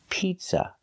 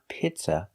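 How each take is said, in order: First: The first vowel is a long ee sound. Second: The first vowel is a short i sound. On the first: The speaker calls it right. "The first vowel is a long E, like green beans" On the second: The speaker calls it wrong. "We don't use the short sound I like milk"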